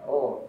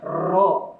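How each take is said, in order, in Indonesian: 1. Huruf r memiliki getaran pendek dan ringan. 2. Huruf r digetarkan panjang dan berat. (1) "Jadi ada sedikit roh ya" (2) "Jangan juga berlebihan. Roh, roh, nah, tidak boleh"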